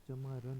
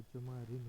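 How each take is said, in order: First: चमारन with a plain short a, chamaran; चमारन said as chamaran, the incorrect form; wrong form. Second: चमारिन with a clear i, chamarin; चमारिन said as chamarin, the correct form. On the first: Hindi teacher showing the wrong word, चमारन as chamaran. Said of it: "नहीं होता है". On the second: Hindi teacher giving the right word, चमारिन as chamarin. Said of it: "होता है". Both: Shown as a demonstration.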